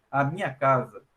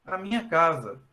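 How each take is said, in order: First: "minha casa" said low, with weight on "minha"; possessive stress on "minha". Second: "minha casa" at everyday pitch, falling at the end; neutral "minha casa" as home. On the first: Teacher showing students the house is owned property, possessive stress on "minha". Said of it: "a entonação em português é importante". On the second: Teacher showing students the place they live, neutral stress on "minha casa". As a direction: say "minha casa" evenly, meaning simply where you live. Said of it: "o local que eu moro". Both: Shown as a demonstration.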